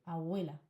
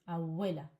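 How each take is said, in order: No difference in how they are said.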